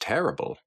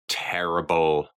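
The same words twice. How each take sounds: First: The word is said plainly, without extra inflection. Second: The word is said with heavy, disgusted inflection.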